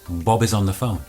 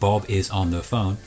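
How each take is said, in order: First: The words run together into one unit. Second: Each word is said separately, not linked. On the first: The speaker calls it right. "What we do say is" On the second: The speaker calls it wrong. "we never say"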